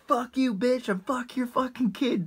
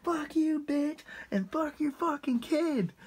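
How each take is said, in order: First: High, mock drunken insult; lightly voiced drunk buddy cursing at the lady; drunk friend. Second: Higher, slower mock drunken insult; lightly voiced drunk buddy, a bit drawn out; drunk friend. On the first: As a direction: sneer it out like a drunk jerk. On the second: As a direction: relish the line, replaying it slow and high. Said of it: "I'll never forget. He was like".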